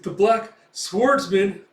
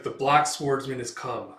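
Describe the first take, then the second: First: High, loud, slow stunned repeat; shocked echo. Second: Said in the usual way. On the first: Acted. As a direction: gasp the name in disbelief. Thug shocked by the name.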